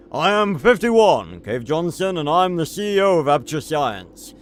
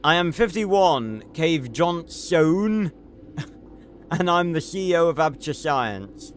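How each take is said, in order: First: Cave Johnson voice. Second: Said in the usual way. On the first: Retold or imitated. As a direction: announce it like a proud CEO. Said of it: "I gotta do it in the Cave Johnson voice". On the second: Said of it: "oh, I gotta do it in the".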